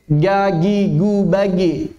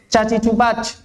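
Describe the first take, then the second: First: The consonant sounds like a hard g. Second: The consonant sounds like a voiceless ch. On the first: "sehingga suaranya mirip g" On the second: "terlalu ke depan sehingga mirip c"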